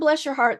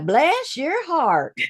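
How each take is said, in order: First: It is said in a warm, sincere tone. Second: It is said in a drawn-out, condescending tone. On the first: The speaker genuinely means it kindly. "that's fine" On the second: The listener is not very smart.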